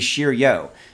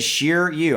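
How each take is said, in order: First: The name ends with an 'oh' vowel. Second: The name ends with an 'oo' vowel. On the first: The speaker calls it wrong. "that looks like it would be Shiryo" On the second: The speaker calls it right. "but it is Shiryu"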